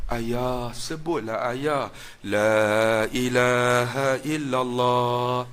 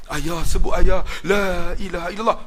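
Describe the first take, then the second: First: Soft, slow, sorrowful plea drawn out into a chant; whisper-soft plea at a dying father's ear, slowly sung; sad, pleading tone. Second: Said in the usual way. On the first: Retold or imitated. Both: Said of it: "dia buat nada sayu".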